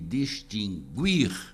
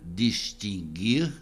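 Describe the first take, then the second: First: The u after the g is pronounced. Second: The u after the g is silent. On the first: The speaker calls it wrong. "com trema" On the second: The speaker calls it right. "sem trema"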